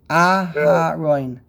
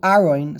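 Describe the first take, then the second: First: The h sound is clearly pronounced. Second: The h sound is dropped entirely. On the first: The speaker calls it right. "he should emphasize the hay, even if it came out to be a regular patach" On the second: The speaker calls it wrong. "If you just do Aroin"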